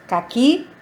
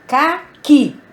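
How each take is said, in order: First: Said in the usual way. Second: "Caqui" split into CA and QUI, loud; stress on last syllable. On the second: Shown as a demonstration. Teacher showing the tonic syllable, "Caqui" split with forceful QUI. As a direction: hit QUI hard after a short break in "Caqui". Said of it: "qui é a última sílaba pronunciada".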